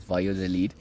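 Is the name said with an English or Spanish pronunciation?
Spanish. It is said with a Spanish-style pronunciation. This is how the name is really said. The speaker calls it right. "which of course is Valladolid"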